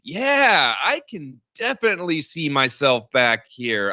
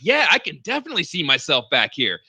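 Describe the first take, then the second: First: It is said in a reluctant, noncommittal tone. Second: It is said in an eager, convinced tone. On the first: The person does not really expect to come back. "it's like the same tone when my friends text me to go out and I'm already in bed watching Netflix" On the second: The person really expects to come back. "His tone didn't really sound like a guy that thinks he's coming back. It wasn't like"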